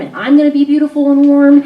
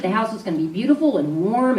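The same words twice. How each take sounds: First: "beautiful and warm" pushed higher and louder; emphatic build. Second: Said in the usual way. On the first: Shown as a demonstration. Wife picturing the reunion with her husband, emphatic lift. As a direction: lift the whole phrase, topping the line before.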